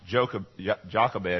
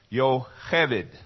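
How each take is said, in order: First: The name begins with a J sound. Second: The name begins with a Y sound. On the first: The speaker calls it wrong. "her name especially is not pronounced Jochebed" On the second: The speaker calls it right. "Yo hebed is the way you pronounce it in Hebrew"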